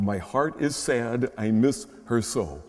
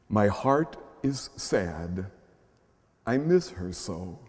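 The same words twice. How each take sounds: First: Said in the usual way. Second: Tender poem reading. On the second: Acted. Reading a child's prayer.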